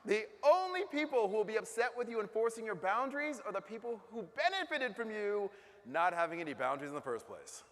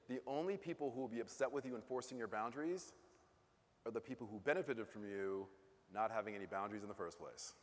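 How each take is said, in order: First: It is said more loudly. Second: It is said at normal volume.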